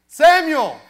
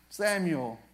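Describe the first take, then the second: First: The name is yelled loudly. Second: The name is said quietly, without yelling.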